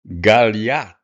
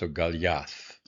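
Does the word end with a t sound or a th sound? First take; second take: t; th. First: The word ends with a plain t sound. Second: The word ends with a th sound.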